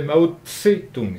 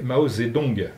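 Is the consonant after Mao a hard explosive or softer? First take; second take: explosive; softer. First: A hard explosive consonant starts the middle syllable. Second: A softer, worn-down consonant starts the middle syllable. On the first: This is the older way the name was said. "avec une palatale explosive après Tse" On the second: This is the current way the name is said. "c'est devenu Zé, parce que ça s'est usé"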